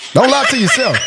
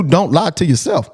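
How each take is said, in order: First: Said through a laugh, pitched higher; cracking up as he repeats it; amused repeat of his own line. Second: Said in the usual way. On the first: Real, not acted.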